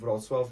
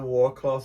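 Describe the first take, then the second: First: It begins with a 'vrots' sound, Polish style. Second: It begins with a 'war' sound, anglicized. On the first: The speaker calls it right. "it's po- the Polish correct way of saying it" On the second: The speaker calls it wrong. "it's wrong"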